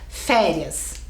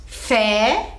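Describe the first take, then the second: First: Said in the usual way. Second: "Férias" split as "Fé... rias", with a long gap; syllable by syllable. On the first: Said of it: "agora vamos pra férias". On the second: Shown as a demonstration. Teacher dividing a word for pupils, "Férias" in two separate beats. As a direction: hold "Fé", pause, then add "rias" in "Férias". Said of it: "Quantas sílabas tem?".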